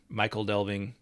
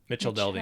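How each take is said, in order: First: The middle consonant is not a 'ch' sound. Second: The middle consonant is a 'ch' sound. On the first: "I'd go back and forth" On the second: "normally pronounced as modern ch"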